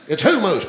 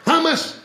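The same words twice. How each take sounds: First: "hummus" said HOO-moose, with long vowels; corrected pronunciation. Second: "Hummus" the American way, HUM-us, pitched high; questioning "Hummus" with a short "uh" first vowel; mispronounced hummus. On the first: Comic correcting a woman in the crowd, "hummus" as HOO-moose. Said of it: "All the American people say hummus". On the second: Comic mimicking an American's question, HUM-us for "Hummus". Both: Acted.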